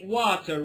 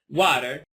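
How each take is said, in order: First: The t in 'water' is a clear t. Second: The t in 'water' sounds like a d. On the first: The speaker calls it wrong. "I don't say water. Water is somehow academic way of speaking English" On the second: The speaker calls it right. "So here it's water"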